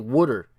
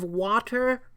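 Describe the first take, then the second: First: It is said in a New Jersey accent. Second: It is said in a non-Jersey accent. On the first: This is how people back home say it. "like we say water in New Jersey" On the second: This is how people over there say it. "Over there, they're like"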